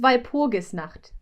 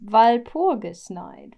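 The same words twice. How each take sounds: First: "Walpurgisnacht" said the German way, ending in "nacht"; German "Walpurgisnacht", last syllable "nakht"; German pronunciation. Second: "Walpurgisnacht" slowly, ending like English "night"; slow English rendering of "Walpurgisnacht", final syllable "night"; English pronunciation. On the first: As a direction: say "Walpurgisnacht" in German, with a throaty ch before the final t. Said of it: "In German, it's". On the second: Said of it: "can you say it one more time". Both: Shown as a demonstration.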